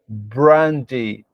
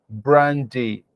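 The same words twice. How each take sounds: Both takes have the same delivery.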